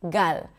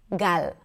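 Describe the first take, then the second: The two takes are said the same way.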